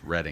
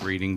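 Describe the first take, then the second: First: The name is said unlike its spelling. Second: The name is said the way it is spelled. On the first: The speaker calls it right. "but I believe it's pronounced Reading" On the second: The speaker calls it wrong. "It looks like Reading"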